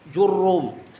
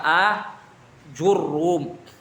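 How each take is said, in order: First: The name begins directly with the 'j' sound. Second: The name begins with an 'a' sound. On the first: "Bisa juga dengan hadful hamzah" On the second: "Itsbatul hamzah"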